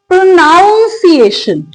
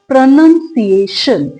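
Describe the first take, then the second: First: The second syllable sounds like 'noun'. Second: The second syllable sounds like 'nun'. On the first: The speaker calls it wrong. "ज्यादातर लोग इसको क्या miss pronounce करते हैं, दे से प्रोनाउंसिएशन। No, that's incorrect." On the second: The speaker calls it right. "हमारा पहला word है प्रोनाउंसिएशन"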